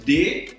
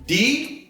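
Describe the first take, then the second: First: The syllable is said with a hard d and e. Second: The syllable is said with an i vowel. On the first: This is how it sounds at the start of a word. "a pronúncia dura da letra D" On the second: This is how it sounds at the end of a word. "se ela estiver no final da palavra, essa pronúncia ela vai ser alterada"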